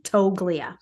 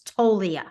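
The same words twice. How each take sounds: First: The G is pronounced in the middle. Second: The G is silent in the middle. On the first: The speaker calls it wrong. "so hard to look at it and not say the G" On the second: The speaker calls it right. "but it's Toglia"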